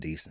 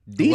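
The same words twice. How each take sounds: First: It is said flatly, sounding unimpressed. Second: It is said with strong, approving emphasis. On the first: It was not good or enjoyable. "That wasn't good" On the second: It was actually good. "put the emphasis on it"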